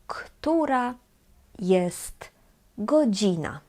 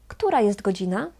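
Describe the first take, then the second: First: The t at the end of jest is heard. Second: The t at the end of jest is dropped.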